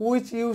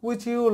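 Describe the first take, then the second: The two takes are said the same way.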